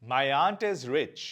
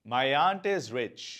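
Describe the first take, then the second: Both takes have the same delivery.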